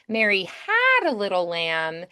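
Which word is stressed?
had. The stress is on had.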